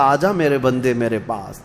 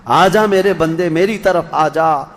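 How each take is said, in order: First: Softly calling the servant home; a soft, tender invitation. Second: The same call, stronger and more urgent; fuller call. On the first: God calling the servant in this world, soft and tender. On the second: God calling the servant again, more urgent and fuller. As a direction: call out again, pressing harder. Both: Retold or imitated. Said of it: "بلا رہا تھا".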